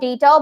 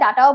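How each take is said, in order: First: The first vowel sounds like 'day'. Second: The first vowel sounds like 'dah'. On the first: This is the American way of saying it. "আমরা যেহেতু American অ্যাকসেন্টটাকে বেশি follow করি আমরা ডেটা বলাটাকেই prefer করি" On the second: This is the other accent's way of saying it. "দুইটা দুই অ্যাকসেন্টের"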